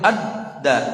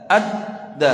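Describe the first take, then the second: The two takes are said the same way.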